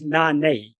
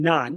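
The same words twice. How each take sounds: First: "nane" with the final A sounded out; scene: teacher showing the emphatic ending, sounding out the final A of "nane". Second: "nan" said short, no final vowel; scene: teacher showing the form the verse does not use, plain "nan". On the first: "nane" with a clear final A. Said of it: "that final A, that suffix A is an intensifier". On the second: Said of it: "instead of saying". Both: Shown as a demonstration.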